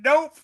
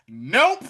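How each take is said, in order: First: High, loud, sassy nope; higher, louder mock-sassy refusal; sassier nope. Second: Short sassy nope, a little louder; blunt refusal. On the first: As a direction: toss it off higher and louder with a laugh. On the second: Retold or imitated. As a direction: cut her off with a flat no. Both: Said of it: "She says".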